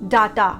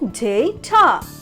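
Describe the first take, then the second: First: The first syllable sounds like 'da'. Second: The first syllable sounds like 'day'. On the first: The speaker calls it wrong. "Most of us pronounce it as data. D A because of D A da" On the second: The speaker calls it right. "it's D A Y day and T A ta. So the proper pronunciation will be data"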